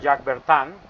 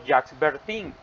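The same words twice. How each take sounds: First: The name is said with French sounds. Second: The name is read with Spanish sounds. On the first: "sería [name], porque la I es como una, entre una O" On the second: "Si lo vamos a pronunciar como está escrito en español"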